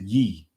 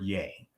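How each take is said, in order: First: The vowel sounds like 'ee' in 'see'. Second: The vowel sounds like 'ay' in 'day'. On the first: "we pronounce it ye when we're when we're reading the scripture" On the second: "the word Yay"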